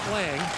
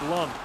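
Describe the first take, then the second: First: The name has an 'a' vowel as in hang. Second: The name has a 'u' vowel as in Lund. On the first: The speaker calls it wrong. "It's not Lang" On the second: The speaker calls it right. "It's kind of like Lund"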